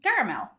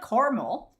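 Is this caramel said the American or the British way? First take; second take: British; American. First: It is said with a British pronunciation. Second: It is said with an American pronunciation. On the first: The speaker calls it right. "In U K, we say caramel" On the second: The speaker calls it wrong. "not caramel"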